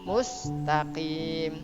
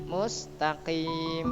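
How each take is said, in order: The two takes are said the same way.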